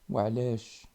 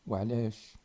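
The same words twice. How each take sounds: The two takes are said the same way.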